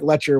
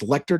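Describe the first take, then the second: First: The middle sound is a ch sound. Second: The middle sounds are k then t. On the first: "it looks like Letcher when it's spelled out" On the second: "some people may say, like, it's maybe it's Lecter County"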